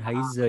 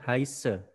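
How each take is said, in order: First: The middle consonant is a voiced z sound. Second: The middle consonant is a voiceless s sound. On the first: The speaker calls it wrong. "bukan Heise ya" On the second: The speaker calls it right. "Kalau ada huruf S double, maka dia dibaca seperti huruf S biasa"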